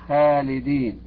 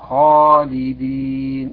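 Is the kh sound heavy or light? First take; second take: light; heavy. First: The kh sound is light and thin. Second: The kh sound is heavy and thick. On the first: The speaker calls it wrong. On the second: The speaker calls it right.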